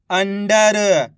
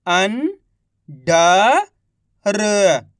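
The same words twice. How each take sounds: First: Said in the usual way. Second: Each syllable drawn out very slowly; slow syllable-by-syllable reading. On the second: Shown as a demonstration. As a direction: sound out सुरंग slowly as सु-रं-ग, one sound at a time. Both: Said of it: "एक अक्षर का उच्चारण करके".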